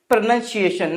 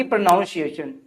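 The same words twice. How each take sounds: First: प्रोनंसिएशन said pruh-NUN-see-ay-shun; correct pronunciation. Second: प्रोनाउंसिएशन said pruh-NOUN-see-ay-shun; wrong pronunciation. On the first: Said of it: "तो क्या बोलेंगे?". (प्रोनंसिएशन में "नन" बोलें) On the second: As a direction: put a "noun" inside प्रोनाउंसिएशन. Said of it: "ना कि". (प्रोनाउंसिएशन में "नाउन" बोलें) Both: Shown as a demonstration.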